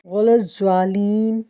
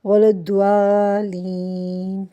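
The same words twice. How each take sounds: First: الضالین with a z sound, slow; wrong recitation. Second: الضالین slow with a heavy daad; correct recitation. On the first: Teacher repeating the mistake, الضالین with z. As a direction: say الضالین as az-zwalin, slowly. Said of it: "نہیں بلکہ". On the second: Teacher giving the right form, slow heavy daad. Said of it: "کہنا ہے". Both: Shown as a demonstration.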